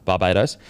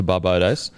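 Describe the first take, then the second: First: "Barbados" restated as bar-BAY-dohs; corrected Barbados. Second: "Barbados" slipped into bar-BOH-dohs; mispronounced Barbados. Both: Real, not acted. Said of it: "am I saying, is it Barbados".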